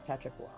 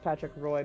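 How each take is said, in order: First: The surname is pronounced like 'wah'. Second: The surname is pronounced like 'roy'. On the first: The speaker calls it right. "but it's Patrick Wah" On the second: The speaker calls it wrong. "everyone thinks Patrick Roy"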